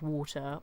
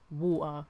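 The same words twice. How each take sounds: First: The middle T is clearly pronounced. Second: The middle T is dropped as a catch.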